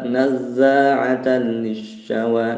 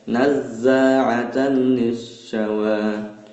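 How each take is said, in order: First: The phrase is recited quickly, doubled consonants rushed. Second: The phrase is recited slowly, doubled consonants pressed. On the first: The speaker calls it wrong. "dicepatkan gitu" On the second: The speaker calls it right. "Jadi yang benar di pelan-pelan"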